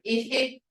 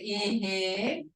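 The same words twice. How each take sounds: First: The word is said short. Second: The word is said long. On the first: It means husband. "One's short" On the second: It means yes. "one's long"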